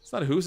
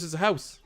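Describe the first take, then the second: First: "hoose" said with a long "oo" in place of "ou"; mock-Canadian "hoose", vowel as in "moose". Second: "house" said with a full "ow" diphthong; "house" with ou vowel. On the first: Streamer correcting his own joke, "hoose" with an exaggerated "oo". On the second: Streamer correcting the joke, "house" with a clear "ow". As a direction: correct it to "house", rhyming with "mouse". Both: Shown as a demonstration. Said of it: "It's not a hoose, it's a house".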